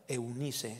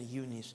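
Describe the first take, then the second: First: The name is pronounced with Spanish sounds. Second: The name is pronounced with English sounds.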